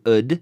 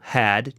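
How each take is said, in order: First: The vowel is reduced and the h is dropped. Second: The vowel is full and the h is heard.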